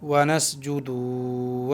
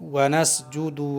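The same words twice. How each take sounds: First: The vowel on 'du' is drawn out long. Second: The vowel on 'du' is short and quick. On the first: The speaker calls it wrong. "दाल को खींचकर पढ़ना है ... इस तरह से यहाँ पढ़ना गलत है" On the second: The speaker calls it right. "दाल को हम जल्दी पढ़ेंगे"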